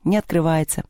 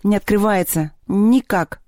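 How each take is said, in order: First: Sighed reply. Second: Higher-pitched, mildly exasperated; irritated. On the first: Lyolya tells Anton the box stays shut, sighed reply. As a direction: admit it with a touch of defeat. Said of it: "вздохнула та". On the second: Sevka throws down the tool over the stuck box, irritated. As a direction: give up on it with annoyance. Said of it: "раздражённо отбросил инструмент". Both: A narrator's reading.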